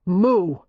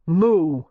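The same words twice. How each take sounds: First: Scowling moo. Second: Grim moo. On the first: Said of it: "Matthew scowled". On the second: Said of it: "he said grimly". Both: A narrator's reading.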